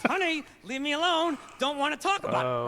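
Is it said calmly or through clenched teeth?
clenched teeth. It is said tensely through clenched teeth.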